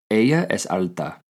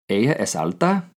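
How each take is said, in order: First: The voice falls at the end, as a statement. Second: The voice rises at the end, as a question.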